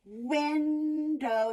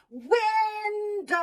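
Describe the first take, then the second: First: Window said as win, pause, dow; syllables split by a pause. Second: Called out high and loud, drawn long; stretched high call; dog calling. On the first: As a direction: break Window into two beats with a gap. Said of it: "See how we pause?". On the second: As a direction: call the word out like calling a dog across a yard. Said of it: "So we do the dog calling". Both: Shown as a demonstration.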